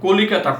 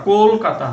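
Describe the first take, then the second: First: কলিকাতা with the middle i sounded; teacher gives older form কলিকাতা; full older form. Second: কলকাতা as "kol-kata", long rounded o, no i; teacher models short form কলকাতা; o-sound demo. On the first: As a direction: say all four syllables of কলিকাতা. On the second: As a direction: hold the first o in কলকাতা. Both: Shown as a demonstration. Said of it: "অ এর পরিবর্তে ওকার".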